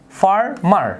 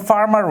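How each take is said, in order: First: ফার্মার split into far-mar; syllable by syllable. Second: Said in the usual way. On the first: Shown as a demonstration. Teacher showing that ফার্মার is said in two beats. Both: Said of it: "আমি দুই ভারে করছি".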